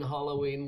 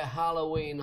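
First: "Halloween" with an open "ah" in "Hal"; alternative Halloween pronunciation. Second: "Halloween" with a short front "a" in "Hal"; Halloween pronunciation. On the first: Host offering another way to say Halloween, open-vowel pronunciation. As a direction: say "Halloween" as HAH-loh-ween. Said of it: "whatever, better than English people". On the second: Host comparing how Irish people say Halloween, front-vowel pronunciation. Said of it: "if Irish people say Halloween, Halloween". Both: Shown as a demonstration.

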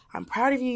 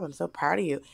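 First: Gentle quoting. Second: Soft gentle quote. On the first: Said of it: "'Cause she was like". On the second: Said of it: "she was like". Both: Retold or imitated.

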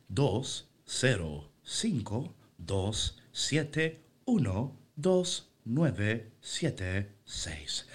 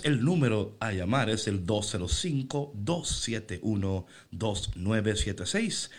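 First: Very slow, mechanical robot readout, fading off; toy robot voice. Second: Toy robot voice. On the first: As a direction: drag out each digit like a machine. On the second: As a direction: read the number like an automated phone menu. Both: Shown as a demonstration. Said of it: "Yo soy en esta mañana esa voz".

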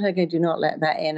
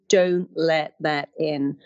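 First: Said in the usual way. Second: "don't" stressed, whole phrase "don't let that in" said slowly and deliberately; slow, firm emphasis. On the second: Shown as a demonstration. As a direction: lean hard on "don't" and slow the rest. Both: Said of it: "And I realized then".

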